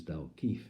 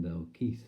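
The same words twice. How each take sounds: First: "Dalkeith" ending in f for th; impaired speech. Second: Said in the usual way. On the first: Acted. Poet saying the town Keith's way, impaired "Dalkeef". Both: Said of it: "to him it was".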